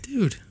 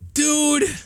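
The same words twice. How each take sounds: First: It sounds flirty and teasing. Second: It sounds angry and mad.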